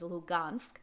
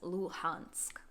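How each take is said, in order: First: The middle consonant is a hard g sound. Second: The middle consonant is a breathy h sound. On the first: The speaker speaks Russian. "the Russian speakers pronounce this as Lugansk" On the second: The speaker speaks Ukrainian. "the Ukrainian speakers will pronounce this as Luhansk"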